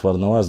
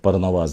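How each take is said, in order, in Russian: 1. Имя начинается со звука Ф. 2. Имя начинается со звука П. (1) "пытаются некоторые люди э, исказить, но начиная говорить фарнаваз" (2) "в истории они записаны как парнаваз непосредственно"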